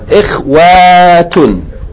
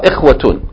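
First: The vowel after 'ikhw' is long. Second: The vowel after 'ikhw' is short. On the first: The speaker calls it wrong. "Not ikhwatun" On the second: The speaker calls it right. "Short vowel"

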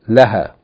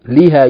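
First: The first vowel is a. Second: The first vowel is i. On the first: The speaker calls it right. "you say" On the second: The speaker calls it wrong. "you don't say"

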